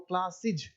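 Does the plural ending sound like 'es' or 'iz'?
iz. The ending is pronounced like 'iz'. This is how English people say it. "अंग्रेज को पढ़ेंगे क्लासिज"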